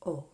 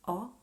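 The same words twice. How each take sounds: First: O as a closed, pure "oh"; narrow, rounded lips on O: "oh". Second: O as an open, wide "aw". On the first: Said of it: "Or the closed letter". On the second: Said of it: "The open letter". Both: Shown as a demonstration.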